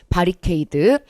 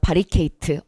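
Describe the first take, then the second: First: The last syllable is said with a d sound. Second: The last syllable is said with a t sound. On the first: It follows the English ending in D. The speaker calls it right. "어르신 발음하면 안 되고" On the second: It is an older people's pronunciation. The speaker calls it wrong. "어르신 발음이죠"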